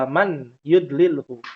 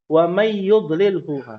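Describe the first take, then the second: First: The n is said clearly before the y. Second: The n merges into the following y sound. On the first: It is ordinary speech, not Quran recitation. The speaker calls it right. "Yang betul" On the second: It applies a Quran recitation rule. The speaker calls it wrong. "Kalau ada penceramah kan baca khutbatul hajah"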